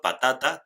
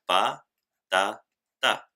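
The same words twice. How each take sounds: First: Said in the usual way. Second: "pa, ta, ta" one syllable at a time; split into syllables. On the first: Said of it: "en el último ejemplo". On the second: Shown as a demonstration. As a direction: clear pauses between the three parts of "pa, ta, ta". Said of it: "Tres sílabas". ("pa, ta, ta" sílaba por sílaba, con pausas)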